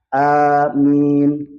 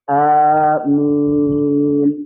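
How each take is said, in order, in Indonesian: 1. Vokal kedua hanya ditahan sebentar. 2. Vokal kedua ditahan cukup panjang. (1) "Ini sama-sama dua harokat" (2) "minnya empat harokat"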